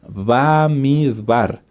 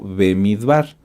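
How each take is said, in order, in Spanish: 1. La primera vocal es un sonido 'a' abierto. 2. La primera vocal es un sonido 'e'. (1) "el nombre correcto del libro de Números es Bamidbar" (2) "O lo puedes encontrar como Bemidbar. Ambas eh, formas de decirlo son correctas"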